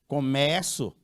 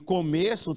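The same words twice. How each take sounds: First: The stressed vowel is open. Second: The stressed vowel is closed. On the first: "começo tem um timbre aberto" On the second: "começo tem o timbre fechado"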